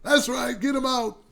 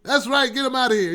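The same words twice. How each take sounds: First: A lightly voiced Trump, higher; a second try at sounding like Trump; Trump impression. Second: Failed Trump impression. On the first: Host correcting his Trump voice, a lightly higher retry. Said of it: "Trump don't sound like that. It's more like". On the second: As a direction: overdo the shouting Trump. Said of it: "Trump don't sound like that".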